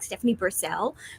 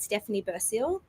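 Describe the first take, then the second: First: It is said in an imitated American accent. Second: It is said in her own non-American accent.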